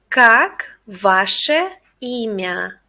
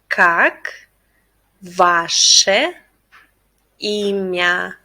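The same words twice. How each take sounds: First: It is said at a faster pace. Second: It is said at a slower pace.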